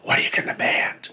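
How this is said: It is spoken in a whisper.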